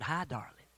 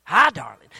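First: Said in the usual way. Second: Mock-incredulous shout of a retold husband; loud startled echo. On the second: Scared husband echoes his wife's greeting in a loud, startled shout. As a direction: blurt it back very loudly.

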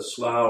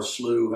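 First: Slough said to rhyme with cow; slough rhyming with cow. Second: Slough said like "slew"; slough rhyming with too. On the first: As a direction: say "slough" with an ow vowel, as in plough. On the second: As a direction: say "slough" with a long oo vowel. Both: Shown as a demonstration. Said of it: "however you want to say it".

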